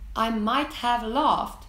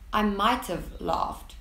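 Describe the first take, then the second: First: Might have is said as two full words. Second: Might have is contracted into one short syllable.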